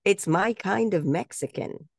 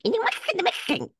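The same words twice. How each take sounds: First: Slow, higher-pitched ad tagline; audition line read. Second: Very high, garbled mock Mexican accent; mock accent demo. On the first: Retold or imitated. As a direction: deliver the slogan slowly, pitched up. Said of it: "I was supposed to say". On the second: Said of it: "can you say it like this".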